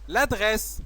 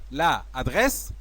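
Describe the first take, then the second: First: The article's vowel is dropped and joined to the noun. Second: The article's vowel is pronounced separately before the noun. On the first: The speaker calls it right. "c'est vrai" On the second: The speaker calls it wrong. "c'est faux"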